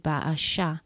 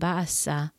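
First: The middle consonant is an sh sound. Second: The middle consonant is a plain s sound. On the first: The speaker calls it right. "like with a S-H" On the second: The speaker calls it wrong. "I was pronouncing the name Baasa wrong"

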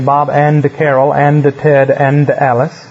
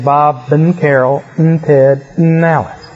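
First: Each 'and' is pronounced as a full word. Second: Each 'and' is reduced to an 'n' sound. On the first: The speaker calls it wrong. "You don't say" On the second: The speaker calls it right. "You just put an N sound in front of it"

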